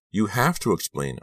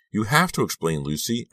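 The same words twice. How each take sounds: First: Crying out. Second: Higher, shaky pleading; trembling voice. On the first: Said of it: "I cried". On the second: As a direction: voice trembling with emotion. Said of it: "I repeated in a trembling voice". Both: A narrator's reading.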